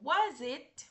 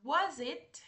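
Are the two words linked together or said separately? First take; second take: linked; linked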